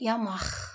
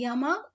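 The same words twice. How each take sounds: First: The final sound is a rasping friction sound. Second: The final sound is a hard stop.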